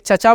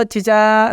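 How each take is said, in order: First: Said in the usual way. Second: Drawn-out taunt. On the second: Shown as a demonstration. Mocking a salesman, calling him a long sarcastic cheecha. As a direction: stretch the vowel into a mocking cheecha. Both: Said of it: "लंबा, वो भी एक taunt है".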